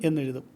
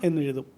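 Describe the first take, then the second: Both takes have the same delivery.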